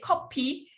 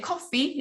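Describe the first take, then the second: First: The middle consonant is a p sound. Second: The middle consonant is an f sound. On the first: It means instant coffee. "when you say copy, it's kind of like more instant coffee" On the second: It means the brewed coffee drink. "if you say coffee, it's more like, you know, the drink coffee"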